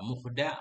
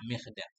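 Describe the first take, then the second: First: The vowel after the m is u. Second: The vowel after the m is i. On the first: "Dhammul mim, dhammah mim" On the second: "Wa kasruha, dan kasrahnya mim"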